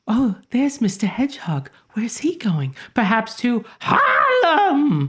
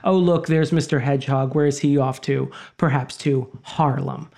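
First: High, lilting, sing-song fairy voice. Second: Said in the usual way. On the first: Retold or imitated. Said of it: "she says it like". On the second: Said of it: "but she says it like".

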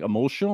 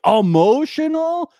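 First: Said in the usual way. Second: Higher, louder, slowed emotional; mock shocked question. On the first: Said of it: "they're like". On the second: Family asking him, shocked and higher. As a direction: stretch out Emotional in disbelief. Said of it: "they were like".

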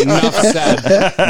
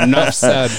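First: Very slow, laughing; slow laughing drawl. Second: Said in the usual way. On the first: Pretend. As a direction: stretch it out with a laugh. Drawn-out joking repeat.

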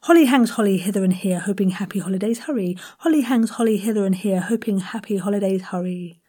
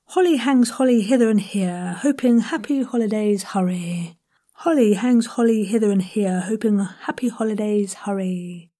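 First: Fast, nimble run at "holly hangs holly"; quicker tongue twister. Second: Measured, careful articulation with breathy H on "holly"; tongue twister, enunciated. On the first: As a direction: race through it with every H clear. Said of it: "one more time". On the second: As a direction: enunciate every H in "holly hangs holly". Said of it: "really enunciate those changes". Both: Shown as a demonstration.

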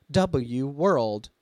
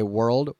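First: "W world" with W read as the letter name; text-to-speech stutter. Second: Said in the usual way. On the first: Shown as a demonstration. Showing how text-to-speech botches a stutter, "W" spelled out in "W world". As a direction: say "double-you", then "world", like a literal machine. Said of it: "the text-to-speech just goes". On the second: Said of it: "when it goes to say world".

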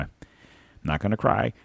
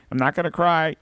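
First: Said in the usual way. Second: High, wobbly fake-tearful voice; playful mock sob in the voice; mock crying. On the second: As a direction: pretend to choke up, hammed-up.

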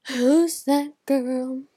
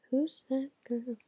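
First: Loud, drawn-out startled question; gasping surprise. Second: Said in the usual way. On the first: Real, not acted. Vlogger suddenly noticing a girl, gasping loudly. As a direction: gasp and stretch it out.

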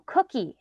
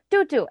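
First: "cookie" higher, with both k sounds clear; correct pronunciation. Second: "Doo doo" high and loud, d sounds replacing k; child's mispronunciation. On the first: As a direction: correct a child with a proper "cookie". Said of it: "you know how to say cookie". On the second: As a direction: answer like a frustrated kid, "Doo doo" for cookie. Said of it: "I think you think you're saying cookie". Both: Retold or imitated.

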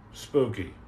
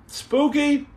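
First: Spooky. dropped low and soft, a spooky deadpan; Spooky. said low and hushed with an eerie tone. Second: Spooky? asked high with a sharp rising lift; Spooky? pitched way up like a question. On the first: Answering his own question, low spooky deadpan. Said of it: "repeats the comment word". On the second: Reading a viewer's word aloud, high and questioning. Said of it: "reads out a viewer comment". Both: Shown as a demonstration.

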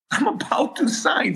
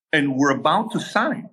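First: Laughing. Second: Said in the usual way. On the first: Real, not acted. Nervous laugh recalling near signing.

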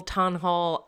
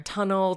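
First: TUNHOLE ending like "hole"; trying out "tunhole"; uncertain pronunciation. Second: TUNNEL said as the everyday word; trying out "tunnel"; uncertain pronunciation. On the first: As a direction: say tunhole as two parts, "ton-hole". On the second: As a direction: say tunnel with a short second syllable, "TUN-ul". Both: Shown as a demonstration. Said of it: "don't know how to say it".

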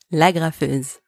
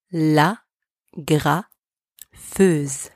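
First: Said in the usual way. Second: La, pause, then graffeuse slowly; slow teaching model of La graffeuse; slow split demo. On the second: Shown as a demonstration. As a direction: break La graffeuse apart and stretch graffeuse. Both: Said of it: "Repeat after me".

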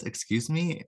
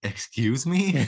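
First: High rising surprised excuse me; surprised question. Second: Slow, louder, falling offended excuse me; indignant echo. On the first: Mystery voice behind the door, startled at the visitors. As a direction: pitch it up as if taken aback. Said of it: "The voice says". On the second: Richard echoing the voice, drawn out and affronted. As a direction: drag it out, mock offended. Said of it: "And Richard's like". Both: Retold or imitated.

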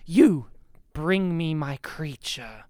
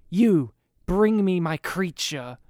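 First: Cold monotone. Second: Slow deadpan cold command; a cold, emotionless order, said slowly; mock-monotone villain quoting the actor; flat monotone villain line. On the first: Retold or imitated. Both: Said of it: "he still delivers it in his monotone, cold way".

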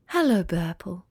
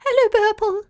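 First: Lower, softer sleepy sigh. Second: Much higher, louder chorus of tiny clouds; a swarm of little cloud voices, very high; thousand tiny voices. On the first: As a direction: sigh it like you were just woken. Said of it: "she sighed". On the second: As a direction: squeak it like a flock of tiny clouds. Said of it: "replied in a thousand tiny voices". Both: Acted.

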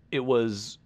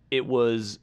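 The two takes are said the same way.

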